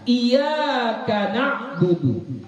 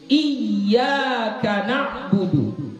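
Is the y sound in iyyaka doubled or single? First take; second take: single; doubled. First: The y sound in iyyaka is short, single. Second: The y sound in iyyaka is held doubled. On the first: The speaker calls it wrong. "tapi kita bacanya iya" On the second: The speaker calls it right. "seharusnya iya, iyanya tasydid"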